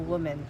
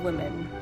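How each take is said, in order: First: The first vowel sounds like in 'woman'. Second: The first vowel sounds like a short 'i'. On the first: The speaker calls it wrong. "I've always pronounced it wrong. It just sounds like woman" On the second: The speaker calls it right. "make like the O a bit more E sounding"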